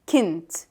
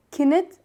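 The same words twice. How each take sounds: First: كنت said as kint, n running straight into t; one-syllable variant. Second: كنت said as kin-it; two-syllable variant. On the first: Teacher showing learners the second variant, كنت in one syllable. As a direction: close كنت on nt with no vowel between. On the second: Teacher showing learners the first variant, كنت in two syllables. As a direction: put a short i between n and t in كنت. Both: Shown as a demonstration. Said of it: "sometimes we will say it".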